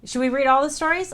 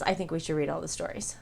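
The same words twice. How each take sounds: First: Higher, louder, keen; excited to read every story; eager question. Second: Said in the usual way. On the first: Real, not acted. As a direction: pitch the idea with excitement. Excited suggestion.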